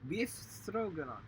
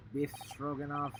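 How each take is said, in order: First: "Beef" said with a long ee; slow "Beef Stroganoff?" with a long ee in "Beef"; "Beef" drawn out with a long ee sound. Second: "Biff" said short with a clipped i; "Biff Stroganoff." with a short i in "Biff"; "Biff" short, not "beef". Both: Shown as a demonstration.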